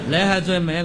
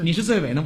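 First: It is said with a Cantonese accent. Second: It is said in plain standard Mandarin.

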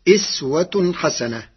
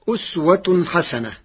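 First: The first word begins with an i vowel. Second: The first word does not begin with i.

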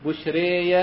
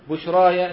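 First: The long vowel is bent strongly toward e. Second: The long vowel is a fully open a. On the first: "والإمالة" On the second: "الفتح"

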